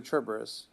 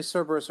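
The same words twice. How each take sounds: First: Cerberus as "CHER-ber-us"; Italian soft C on Cerberus; Italian CH pronunciation. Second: Cerberus as "SER-ber-us"; first option, Cerberus with a hissed C like "s"; soft S pronunciation. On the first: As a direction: open Cerberus with a "ch" sound. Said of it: "either say Cerberus or Cerberus". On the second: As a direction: open Cerberus with an S sound. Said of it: "he would either say". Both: Shown as a demonstration.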